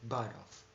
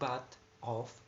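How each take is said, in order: First: The two words are linked together quickly. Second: The two words are said separately and carefully. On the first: "after assimilation in rapid speech" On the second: "from the normal speech"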